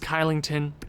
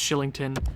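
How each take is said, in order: First: The name begins with a hard K sound. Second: The name begins with a soft SH sound. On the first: This is how the name is spelled. The speaker calls it wrong. "it says Kylington" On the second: This is how the name is actually said. The speaker calls it right. "but apparently it's Shillington"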